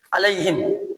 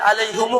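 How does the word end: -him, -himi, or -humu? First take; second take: -him; -humu. First: The word ends with the sounds him. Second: The word ends with the sounds humu. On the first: The speaker calls it right. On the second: The speaker calls it wrong.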